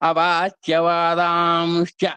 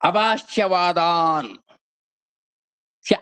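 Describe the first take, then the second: First: The words are joined, with nasal and sh before ca. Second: The words are said separately, first ending in n. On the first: "నకారం తర్వాత అక్కడ సున్నా ఏర్పడి శాకు చావత్తు వచ్చేస్తుంది" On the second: "ఈ రెండు పదాలు కలిసినాయండి ఇక్కడ"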